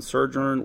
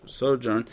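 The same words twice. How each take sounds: First: Sojourn slurred as "suh-zhurn" with a zh sound; a fumbled first try at sojourn; mispronounced sojourn. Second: Sojourn said carefully as "so-jern" with a long o and a j sound; the careful corrected sojourn. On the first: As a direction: stumble over sojourn, saying "suh-zhurn". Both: Shown as a demonstration.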